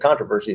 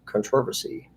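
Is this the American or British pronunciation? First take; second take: American; British. First: It is said with a non-British, American pronunciation. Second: It is said with a British pronunciation. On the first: "instead of controversy" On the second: "I like the British pronunciation"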